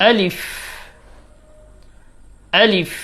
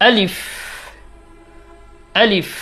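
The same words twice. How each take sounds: Both takes have the same delivery.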